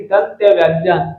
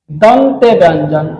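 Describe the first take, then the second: First: दंत व्यंजन slow and deliberate, stress on दंत; correct term. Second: दंत व्यंजन slow and deliberate; correct term. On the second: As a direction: spell out दंत व्यंजन slowly. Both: Shown as a demonstration. Teacher correcting the pun, slow and clear. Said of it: "दंत मंजन नहीं".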